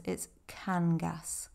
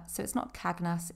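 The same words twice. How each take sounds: First: Cangas said slowly as KAN-gas, n before g; slow, careful Cangas with the n first; correct Cangas. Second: Cagnas said with the g before the n, KAG-nas; the common mispronunciation Cagnas, g then n; wrong Cagnas. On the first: Teacher giving learners the right Cangas, slow and clear. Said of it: "it's not Cagnas, it's Cangas". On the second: Teacher showing learners the wrong way, Cagnas with g before n. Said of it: "so it's not Cagnas". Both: Shown as a demonstration.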